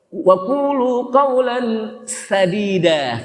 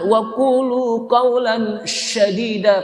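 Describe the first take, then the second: First: Sadida begins with a plain 's' sound. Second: Sadida begins with an 'sh' sound. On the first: Speak with gentle words. The speaker calls it right. "pakai sin" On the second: Speak with very harsh words. The speaker calls it wrong. "pakai shin"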